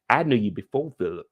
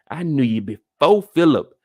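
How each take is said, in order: First: Said in the usual way. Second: "before" broken up and punched loud; pointed emphasis. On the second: Retold or imitated. Reed reminds her he came before Philip, pointedly emphatic. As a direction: lean hard on "before Philip", louder.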